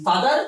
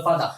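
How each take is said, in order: First: "ফাদার" with the final R sounded; everyday "ফাদার", R kept; R pronounced. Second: "ফাদা" with the R dropped; R-less British "father" as "ফাদা"; British pronunciation. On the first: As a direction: end "ফাদার" on a clear R. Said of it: "হয়ে গেল ফাদা". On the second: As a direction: finish "ফাদা" on the open vowel. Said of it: "ফাদার হয়ে গেল ফাদা". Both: Shown as a demonstration.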